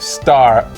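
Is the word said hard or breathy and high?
hard. The vowel is said hard and flat.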